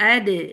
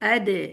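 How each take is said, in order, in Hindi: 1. अंतिम d मज़बूत है और उसमें गूंजता हुआ झटका है। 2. अंतिम d मज़बूत है और उसमें गूंजता हुआ झटका है।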